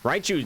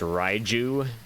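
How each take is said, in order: First: The middle consonant is a sharp ch sound. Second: The middle consonant is a soft j sound. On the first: This is the speaker's preferred pronunciation. "Raichu just sounds better" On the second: This is the official pronunciation. "I know the the pronunciation is Raiju"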